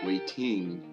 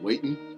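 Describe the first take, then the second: First: The ending is said with a full -ing sound. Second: The ending is said as -in, dropping the g. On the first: "I used to say everything with the I N G" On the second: "instead of"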